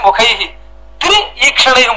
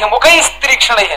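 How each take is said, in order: First: The second word begins with 'tr'. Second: The second word begins with 'str'. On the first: It refers to having three eyes. The speaker calls it right. "అక్కడ విడదీసి" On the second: It refers to women. The speaker calls it wrong. "ఆడవాళ్ళు అని అర్థం చెప్పాడు ఆయన. అది కాదు"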